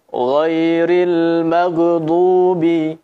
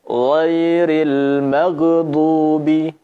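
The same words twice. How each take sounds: The two takes are said the same way.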